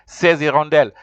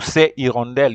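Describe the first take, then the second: First: The two words are linked with a joining sound. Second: The two words are said separately, without linking. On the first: The speaker calls it right. "You have to say" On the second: The speaker calls it wrong. "You can't say ... ces hirondelle"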